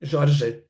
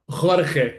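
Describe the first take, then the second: First: The name is said the Portuguese way. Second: The name is said the Spanish way. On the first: The speaker calls it right. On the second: The speaker calls it wrong.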